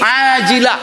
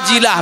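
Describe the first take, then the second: First: It begins with a deep throaty ain sound. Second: It begins with a plain glottal stop. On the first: The speaker calls it right. "makhraj ain ini ajila" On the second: The speaker calls it wrong. "Tidak diperhatikannya makhraj ain"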